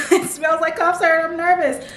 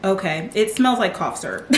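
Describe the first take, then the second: First: High, giggling through the words; laughing. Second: Said in the usual way. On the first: Real, not acted. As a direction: laugh it out, a bit nervous. Laughing at the smell.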